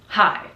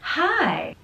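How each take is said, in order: First: The word is short with a flat tune. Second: The word is long with an up-down tune. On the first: The speaker calls it wrong. "not hi" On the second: The speaker calls it right. "longer and up down intonation sounds very friendly"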